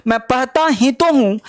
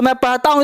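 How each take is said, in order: First: "मैं पढ़ता ही तो हूँ" with "तो" pressed and the line falling at the end; emphatic. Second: Said in the usual way. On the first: Shown as a demonstration. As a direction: lean on "ही तो" to insist. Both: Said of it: "emphatic है".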